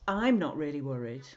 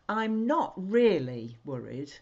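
First: The stress falls on the word I'm. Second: The stress falls on the word really. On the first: Someone else is the one who is worried. "That really means somebody else is really worried" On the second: The speaker is actually a little worried. "which is kind of like a way of saying, well, I am worried really"

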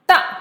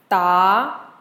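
First: The pitch falls sharply from high to low. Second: The pitch rises from middle to high.

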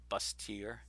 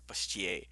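First: The word is pronounced the English way. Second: The word is pronounced the French way. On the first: "it's spelled Bustier" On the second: "But I said it very French"

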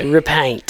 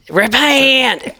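First: It is said plainly, without a Southern drawl. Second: It is drawled in a Southern preacher accent.

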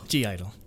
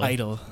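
First: The name is said with a G sound. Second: The name is said without a G sound. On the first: This is the confirmed English way of saying the name. "But in English, it's G Idol" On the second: This is the Korean way of saying the name. "it's silent in Korean"

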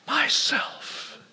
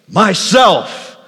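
First: It is whispered very softly. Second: It is said loudly and clearly.

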